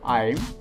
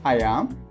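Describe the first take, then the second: First: The words are joined into one short syllable. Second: Both words are said fully and separately. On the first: "It's short for" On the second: "Full form of the helping verb"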